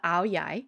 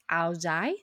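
First: It is said with a southern Vietnamese pronunciation. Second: It is said with a northern Vietnamese pronunciation. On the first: "this is the pronunciation used by folks hailing from the southern part of Vietnam" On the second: "in the northern part of Vietnam, you may hear it pronounced as"

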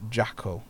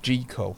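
First: The name does not rhyme with treacle. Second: The name rhymes with treacle. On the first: The speaker calls it wrong. "not Jackal" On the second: The speaker calls it right. "it is pronounced Jekyll"

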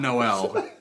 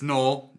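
First: The name is said not rhyming with pole. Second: The name is said to rhyme with pole. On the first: The speaker calls it wrong. "not Noel" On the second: The speaker calls it right. "rhymes with pole"

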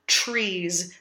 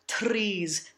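First: The tr sounds like a ch sound. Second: The r after the t is rolled. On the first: "Nor do we want to do the colloquial CH sound" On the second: "We don't want to roll these R's"

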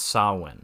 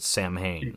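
First: The word is said the Irish way. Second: The word is said in an anglicized way. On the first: The speaker calls it right. "let my Irish ass correct you here. It's pronounced Samhain" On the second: The speaker calls it wrong. "Dr. Loomis calls it ... it's kind of distracting that he says it wrong"

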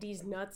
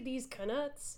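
First: The second word starts with a plain N sound. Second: The second word starts with a K sound. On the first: It refers to ordinary nuts and sounds rude. The speaker calls it wrong. "if you're just saying these nuts out loud" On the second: It refers to the wizard coins. The speaker calls it right. "I like to pronounce the K"

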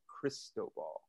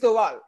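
First: The name is said with an English accent. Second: The name is said with a Spanish accent.

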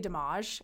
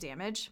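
First: The word has a French-like pronunciation. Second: The word has a plain English pronunciation.

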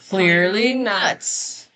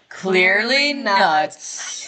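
First: The voice goes up in pitch. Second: The voice goes down in pitch. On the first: "see, I went up" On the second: "I went down in my voice because you went down in your voice"

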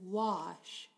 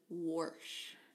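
First: The word has no r sound after the vowel. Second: The word has an r sound after the vowel. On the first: "She doesn't say wash" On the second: "She says warsh"

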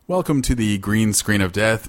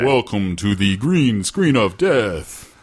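First: It is said in a natural speaking voice. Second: It is said in a put-on announcer voice.

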